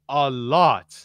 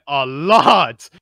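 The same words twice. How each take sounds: First: "lot" drawn out slowly; slow, weighted "a lot"; stress on LOT. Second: "lot" punched loud and stretched long; heavy stress on LOT. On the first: Telling co-hosts how much he was told, stress on "lot". First take, then escalated for emphasis. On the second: Hammering home to co-hosts how much he heard, heavy stress on "lot". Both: Real, not acted.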